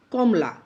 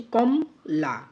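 First: Said in the usual way. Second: কমলা slowly as two beats, কম, then লা; two-beat split. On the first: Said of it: "কমলাটাকে আমরা কীভাবে উচ্চারণ করছি". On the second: Shown as a demonstration. Teacher shows how we pronounce কমলা, split in two beats. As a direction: break কমলা after কম, holding each half. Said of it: "কীভাবে উচ্চারণ করছি".

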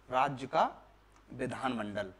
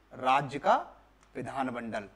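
No difference in how they are said.

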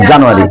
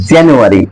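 First: জানুয়ারি with a full "ja" as Bengalis say it; local Bengali pronunciation. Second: জানুয়ারি opened as "jyan-", like "JAN-yu-a-ri"; British pronunciation. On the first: Teacher showing students how we say it, local pronunciation. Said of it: "কি উচ্চারণ করি". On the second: Teacher showing how the British say it, British pronunciation. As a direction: say জানুয়ারি British style, "jan" with a short English a. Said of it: "ব্রিটিশরা এটা উচ্চারণ করে". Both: Shown as a demonstration.

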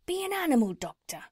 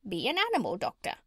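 First: Lightly voiced tradesman urging, higher and quicker; a quick, raised, urging sales pitch in light character; cat's meat man. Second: Swooping parrot voice, quick. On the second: Acted. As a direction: squawk the advice like a bossy parrot.

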